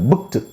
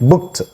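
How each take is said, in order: First: The ending is a voiced d sound. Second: The ending is a voiceless t sound. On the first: The speaker calls it wrong. "బుక్డ్ కాదు" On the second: The speaker calls it right. "ఈ ఈడి టా లాగా పలకాలి బుక్డ్ అనాలి"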